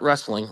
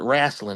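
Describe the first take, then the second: First: It is said in a standard accent. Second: It is said with a Southern drawl.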